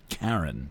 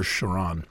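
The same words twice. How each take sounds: First: "Charon" said as KARR-ən; hard K pronunciation. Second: "Chiron" said as shuh-RON; soft SH pronunciation. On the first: Giving the actual pronunciation, "Charon" as KARR-ən. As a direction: say "Charon" with a hard K and stress first. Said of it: "I think it's actually pronounced". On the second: Giving the preferred pronunciation, "Chiron" as shuh-RON. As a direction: say "Chiron" with SH and stress on the end. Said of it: "I prefer". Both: Shown as a demonstration.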